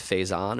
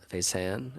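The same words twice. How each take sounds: First: "Faison" said FAY-zahn, with an open "ahn"; French-style pronunciation. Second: "Faisan" said fay-SAN, with a flatter "an"; alternative pronunciation. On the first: Guessing at a brewery's French name, "Faison" as fay-zahn. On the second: Guessing at a brewery's name, "Faisan" as fay-san. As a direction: try "Faisan" as fay-SAN, rhyming with "can". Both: Shown as a demonstration. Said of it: "I'm not sure how to pronounce it".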